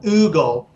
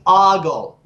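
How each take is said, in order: First: The first vowel sounds like 'oo'. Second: The first vowel sounds like 'oh'. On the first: The speaker calls it wrong. "not oogle" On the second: The speaker calls it right. "The word is ogle"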